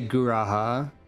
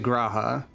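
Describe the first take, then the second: First: The first sound is strongly emphasized. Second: The first sound is said lightly, not emphasized. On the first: This is how the speaker had been saying it. "I'm emphasizing" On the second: This is how the game says it. "They really did stop emphasizing the first letter as much"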